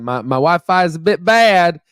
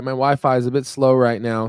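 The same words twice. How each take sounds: First: Playful Southern twang, higher and lifted; Tennessee accent. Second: Said in the usual way. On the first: Pretend. Visiting streamer jokes that his accent slipped, playful Tennessee accent. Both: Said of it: "sorry, my accent came out there".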